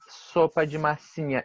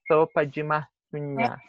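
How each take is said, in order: First: The s sounds are plain hissing s sounds. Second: The s sounds are lisped with tongue on teeth. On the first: The speaker calls it wrong. "ele não é um sopa de massinha" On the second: The speaker calls it right. "ele é no dente"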